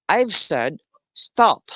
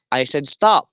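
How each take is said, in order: First: "I've said stop" slowly, with a pause before "stop"; contrasting broken rhythm. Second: "I said stop" in even beats, "stop" stressed; stressed, evenly paced. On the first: Teacher contrasting two rhythms, slow paused "I've said ... stop". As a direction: draw out "I've said", then set "stop" apart. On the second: Teacher showing rhythm to the class, evenly paced stress on "I said stop". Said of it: "the stressed and evenly paced sentence". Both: Shown as a demonstration.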